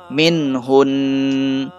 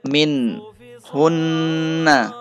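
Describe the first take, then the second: First: The phrase ends on a held n sound. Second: The phrase ends with a short a vowel.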